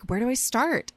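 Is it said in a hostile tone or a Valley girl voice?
hostile. It is said in a hostile, antagonistic tone.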